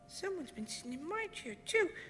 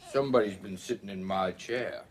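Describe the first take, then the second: First: It is said in a wee small voice. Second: It is said in a great big voice.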